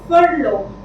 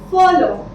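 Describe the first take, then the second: First: The R sound is pronounced in the word. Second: The R sound is left silent in the word. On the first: The speaker calls it wrong. "I don't say furlough" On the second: The speaker calls it right. "This is silent. ... I say follow"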